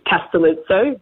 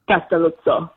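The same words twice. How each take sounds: First: It is said the Australian way. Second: It is said the Italian way.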